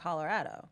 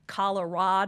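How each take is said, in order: First: It uses the local Colorado pronunciation. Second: It uses the East Coast pronunciation. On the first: A local from Colorado says it. "is the way people say it from Colorado" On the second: An outsider from the East Coast says it. "People on the East Coast say"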